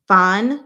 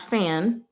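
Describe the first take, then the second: First: It is said with a Chinese pronunciation. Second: It is said like the English word fan. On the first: The speaker calls it right. "So that's how we pronounce that" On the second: The speaker calls it wrong. "not fan"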